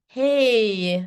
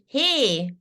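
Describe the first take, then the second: First: The vowel glides upward at the end. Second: The vowel stays steady with no glide. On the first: The speaker calls it right. "We say, ... There's a A to it" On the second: The speaker calls it wrong. "we don't say in English"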